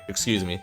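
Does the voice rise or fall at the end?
fall. It is said as a falling statement.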